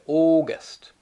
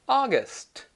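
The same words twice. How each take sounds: First: The first vowel does not sound like 'ah'. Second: The first vowel sounds like 'ah'. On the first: The speaker calls it wrong. "most Japanese people say August. No, that's not correct" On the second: The speaker calls it right. "It's ah, ag, aga, august"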